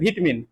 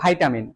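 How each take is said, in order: First: The first syllable is said like 'vee'. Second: The first syllable is said like 'vai'. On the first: This is how older neighborhood women say it. "আমার পাড়ার কাকিমাদের কাছ থেকে শুনো, ওরা বলবে ভিটামিন" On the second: This is how stylish English-medium students say it. "যারা একটু স্টাইলিশ যারা আছে না, যারা সিবিএসসি বোর্ডের স্টুডেন্ট আর কি, তারা বলে ভাইটামিন"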